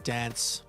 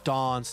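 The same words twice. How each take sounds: First: The vowel is a short, plain 'a' sound. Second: The vowel is a long, posh 'ah' sound. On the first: "instead of" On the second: "your vowels are posh"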